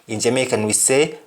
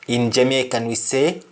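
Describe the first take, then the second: No difference in how they are said.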